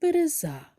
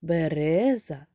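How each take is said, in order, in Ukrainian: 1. Наголос на третьому складі. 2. Наголос на другому складі. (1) "чи третій" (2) "Другий"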